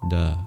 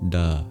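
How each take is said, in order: Both takes have the same delivery.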